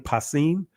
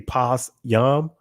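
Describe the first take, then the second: First: The word ends with an 'eem' sound. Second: The word ends with a 'yam' sound. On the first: This is the modern Israeli reading. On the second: This is the ancient Hebrew reading.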